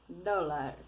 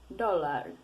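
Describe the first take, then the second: Both takes have the same delivery.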